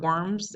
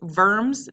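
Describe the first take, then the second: First: The word begins with a W sound. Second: The word begins with a V sound. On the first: The speaker calls it wrong. "not worms" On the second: The speaker calls it right. "it's verms"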